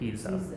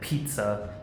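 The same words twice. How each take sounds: First: The double z is a softer, voiced sound. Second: The double z is a sharp, hard ts sound. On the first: This is how it would be if Latin. "I would assume a little bit softer" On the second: This is the Italian way. "instead of saying pizza"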